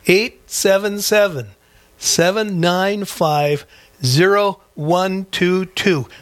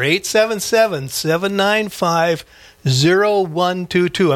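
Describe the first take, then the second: First: It is read slowly. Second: It is read at a normal pace.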